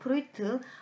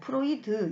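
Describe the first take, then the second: First: The name is said the German-style way. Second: The name is said the usual Korean way. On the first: The speaker calls it right. "독일식 발음을 하자면 프로이트가 맞죠" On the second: The speaker calls it wrong. "여러분들 보통 뭐 프로이드 이렇게 어, 이야기하기도 하는데"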